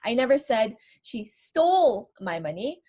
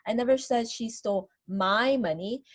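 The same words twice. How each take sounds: First: The word stole is stressed. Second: The word my is stressed. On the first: She may have borrowed it rather than stolen it. "maybe I'm implying that she borrowed my money" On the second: The money taken may have belonged to someone else. "Maybe I'm talking about somebody else's money"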